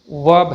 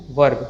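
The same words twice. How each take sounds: First: वर्ब with the r left out; silent r. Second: वर्ब with an audible r; sounded r. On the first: Teacher gives correct pronunciation, r silent. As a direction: say वर्ब without any r. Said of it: "सही pronunciation". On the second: Teacher warns against this version, r sounded. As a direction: let the r be heard in वर्ब. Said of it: "ना कि". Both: Shown as a demonstration.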